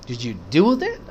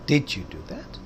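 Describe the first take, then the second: First: The stress is on the word do. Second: The stress is on the word did. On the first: Asking whether the act was really carried out. "किया वाकई" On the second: The listener can hardly believe it was really done. "यकीन ही नहीं हो रहा आपने वो वाकई किया।"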